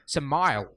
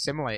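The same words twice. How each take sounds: First: The final E is silent. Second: The final E is pronounced. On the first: The speaker calls it wrong. "She went simile" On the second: The speaker calls it right. "it's pronounced simile. / But like you pronounce the E"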